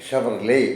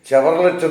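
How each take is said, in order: First: It starts with 'sh' and ends without 't'. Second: It starts with 'ch' and ends with 't'. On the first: The speaker calls it right. "യഥാർത്ഥത്തിലുള്ള ഉച്ചാരണം" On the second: The speaker calls it wrong. "ചില ആൾക്കാർ പറയുന്നത് കേൾക്കാം"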